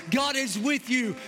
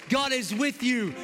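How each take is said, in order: Both takes have the same delivery.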